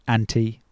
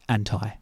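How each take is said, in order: First: It is said with a British pronunciation. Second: It is said with an American pronunciation. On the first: "British English" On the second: "American English"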